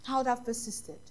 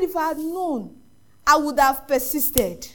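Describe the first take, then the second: First: Softly repeated retold regret; subdued regret. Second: Slow, drawn-out mock lament; retold anguished regret. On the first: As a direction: let the regret sink in, much softer. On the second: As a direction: stretch out the regret, retelling his grief. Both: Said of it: "he cried".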